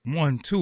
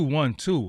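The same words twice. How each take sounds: First: One, two with a rising tune on two; mic check rising. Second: One, two with a falling tune on two; mic check falling. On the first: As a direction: count one, two lifting up on two like a question. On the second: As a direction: count one, two dropping down firmly on two. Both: Shown as a demonstration.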